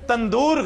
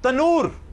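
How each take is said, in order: First: It is said with a 'nd' in the middle. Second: It is said with only an 'n' in the middle. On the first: The speaker calls it wrong. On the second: The speaker calls it right.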